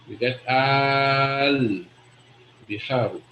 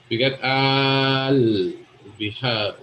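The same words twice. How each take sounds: First: Slow al biharu, the two words linked into one; joined al-biharu. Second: Al bihar, stretched slowly into one sound; slow, joined al bihar, the a of al dropped. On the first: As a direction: draw out al, then drop to biharu. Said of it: "we join it". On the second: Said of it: "But you say it like that". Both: Shown as a demonstration.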